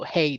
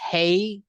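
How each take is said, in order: First: The word is said in a deep, low voice. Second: The word is said in a high-pitched voice. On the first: The speaker calls it right. "drop my voice and let out a deeper" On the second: The speaker calls it wrong. "high pitch hey"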